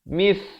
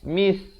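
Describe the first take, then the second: First: The consonant is a th sound, tongue between teeth. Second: The consonant is a plain hissing s sound. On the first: The speaker calls it right. "di hujung lidah itu mesti keluar" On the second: The speaker calls it wrong. "Kalau lidah tak keluar jadi mis, mis. Itu jadi huruf sin"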